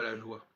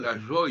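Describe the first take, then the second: First: The vowel in joie sounds like wa. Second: The vowel in joie sounds like oy. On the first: The speaker calls it wrong. "et non pas" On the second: The speaker calls it right. "on devrait dire"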